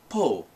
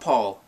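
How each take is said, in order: First: The name ends without any L sound. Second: The name ends with a clear L sound. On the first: "they say it as if there's no L" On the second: "Not Paul"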